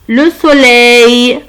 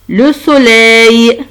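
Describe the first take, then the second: Both takes have the same delivery.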